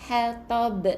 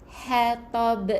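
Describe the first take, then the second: Both takes have the same delivery.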